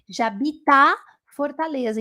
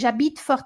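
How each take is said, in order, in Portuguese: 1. Uma vogal 'a' final segue 'Jabit'. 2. Não há vogal 'a' final depois de 'Jabit'. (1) "não pode esquecer desse A" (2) "às vezes, eles tiram esse A"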